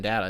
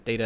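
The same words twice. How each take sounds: First: "data" with a short a, as in cat; data as DAT-uh. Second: "data" with a long a, as in day; data as DAY-tuh. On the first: Host comparing identical spellings, "data" as DAT-uh. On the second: Host comparing identical spellings, "data" as DAY-tuh. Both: Shown as a demonstration. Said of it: "it's gonna be the same fucking word".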